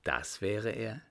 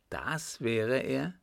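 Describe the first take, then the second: First: First dawning surprise, understated; mild exclamation. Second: Slower repeat, rising in surprise; astonished exclamation. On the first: Young man learns who the portrait shows, mildly surprised. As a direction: take it in with a touch of surprise. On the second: Young man exclaims over his grandfather's portrait, slow and surprised. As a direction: draw it out in mild amazement, rising. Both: A narrator's reading. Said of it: "rief er aus".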